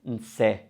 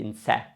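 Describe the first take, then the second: First: Nse ending in a closed E; closed final E. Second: Nse ending in an open E; open final E. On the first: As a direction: say nse with a tight E, like "ay" without the glide. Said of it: "it's always going to be a closed E". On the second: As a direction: say nse with a wide E, as in "bed". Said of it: "It's not going to be nse". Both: Shown as a demonstration.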